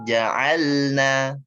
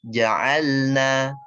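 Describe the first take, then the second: No difference in how they are said.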